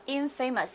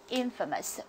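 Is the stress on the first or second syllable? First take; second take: second; first. First: The stress is on the second syllable. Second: The stress is on the first syllable. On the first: The speaker calls it wrong. "不能读作infamous" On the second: The speaker calls it right. "我们要读作infamous"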